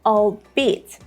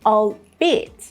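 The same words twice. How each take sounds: First: The main stress is on the second syllable. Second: The same.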